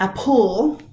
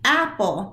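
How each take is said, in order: First: The stress is on the second syllable. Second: The stress is on the first syllable. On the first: The speaker calls it wrong. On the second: The speaker calls it right. "That's where your stress is"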